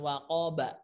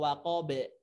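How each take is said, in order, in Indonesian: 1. Huruf b terakhir dilepas dengan bunyi a yang penuh. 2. Huruf b terakhir dilepas dengan bunyi e. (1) "bukan waqaba" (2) "atau waqabe, bukan"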